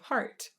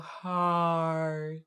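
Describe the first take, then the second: First: The vowel is short and plain. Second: The vowel is drawn out through each part. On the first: "instead of just saying heart" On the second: "you hear her go heart and love every part"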